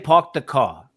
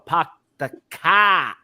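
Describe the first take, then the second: First: It is said in the speaker's plain accent. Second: It is said in a heavy, stressed Boston accent. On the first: "I'll say park the car" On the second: "a guy in Boston will go, he'll really stress it"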